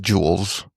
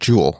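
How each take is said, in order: First: The name ends with an added S sound. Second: The name ends without any S sound. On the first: The speaker calls it wrong. "the way that they would say it" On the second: The speaker calls it right. "no, it's just jewel"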